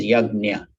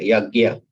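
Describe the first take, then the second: First: "yagna" as "YAG-nya", with the n sounded; correct pronunciation. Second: "yagya" as "YAG-ya", without an n; common variant pronunciation. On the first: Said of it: "That is the correct pronunciation". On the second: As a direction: stress the first half of "yagya": "YAG-ya". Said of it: "in a lot of places, they say". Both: Shown as a demonstration.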